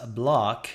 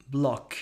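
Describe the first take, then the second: First: "block" with an open American ah vowel; "block" said like "blahk"; imitating her vowel. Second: "block" with rounded lips and a short British o; "block" said like "blok"; British lot vowel. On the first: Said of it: "She says". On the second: Shown as a demonstration. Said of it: "she should sound like".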